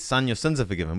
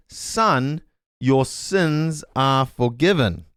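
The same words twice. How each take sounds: First: Said in the usual way. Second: Slow, solemn "forgiven" drawn out; Jesus's gentle words. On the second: Retold or imitated. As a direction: lay the blessing down slowly and gently. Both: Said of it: "Jesus says".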